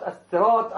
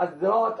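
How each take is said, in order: First: "الصراط" with a full emphatic ص; الصاد مفخمة; standard reading. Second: "الزراط" with a ز instead of the ص; قراءة الصاد زايا; z variant. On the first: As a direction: say "الصراط" with a heavy ص. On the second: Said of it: "تقرأ الزراط". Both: Shown as a demonstration.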